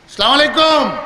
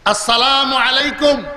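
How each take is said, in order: First: The greeting is clipped and slurred together. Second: Every syllable of the greeting is pronounced fully. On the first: It is a mere formality that earns no reward. The speaker calls it wrong. "সওয়াব হবে না" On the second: It is a sincere greeting that earns reward. The speaker calls it right. "তাহলে সালাম সওয়াব হবে"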